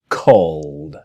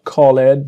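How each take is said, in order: First: The ending joins the word in one syllable. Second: The ending is said as a separate syllable. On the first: The speaker calls it right. "the E is disappearing" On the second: The speaker calls it wrong. "it's not called"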